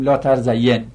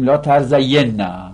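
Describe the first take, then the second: First: لا ترزین as la tar-za-yen, stopping on a single n; light emphatic nun. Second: لا ترزین نه as la tar-za-YEN-na, doubled n with open 'a'; heavy emphatic nun. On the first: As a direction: end لا ترزین on a bare n, no final vowel. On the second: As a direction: end لا ترزین نه on a held, doubled 'nna'. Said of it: "بخوایم تأکیدش کنیم". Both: Shown as a demonstration.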